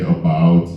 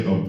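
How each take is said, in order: First: Said in the usual way. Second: "about" said as Canadians supposedly say it, like "aboot"; mock Canadian pronunciation. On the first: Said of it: "we say". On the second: Comic shows how Canadians speak, "about" with a Canadian vowel. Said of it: "they do speak differently up there".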